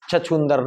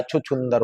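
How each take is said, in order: First: छछूंदर said with a plain ch at the start; wrong spelling said. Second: छुछुंदर said chhuchhundar with two short u sounds; right form said. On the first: Teacher shows the wrong form छछूंदर. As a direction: read छछूंदर as chachhundar. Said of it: "छछूंदर नहीं होता है". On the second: Teacher gives the correct form छुछुंदर. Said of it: "छुछुंदर होता है". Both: Shown as a demonstration.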